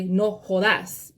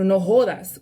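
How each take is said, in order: First: The stress in jodas is on the last syllable. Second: The stress in jodas is on the first syllable. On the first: This is how Salvadorans say it. "they will put the accent over the A" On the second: This is how the speaker's own community says it. "We put the accent over the O"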